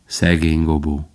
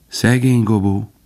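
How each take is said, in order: First: Bambi's lower, heavier poor Gobo; low echo. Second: Faline's lighter, wistful poor Gobo; light sigh. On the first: Bambi echoing Faline, lower and heavier. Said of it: "Bambi ismételte". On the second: Faline lightly sighing over lost Gobo. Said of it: "Könnyedén sóhajtott". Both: A narrator's reading.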